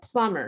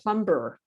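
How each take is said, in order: First: The B sound is not pronounced. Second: The B sound is clearly pronounced. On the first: The speaker calls it right. "there's a lot of silent B's" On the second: The speaker calls it wrong. "not a plumber"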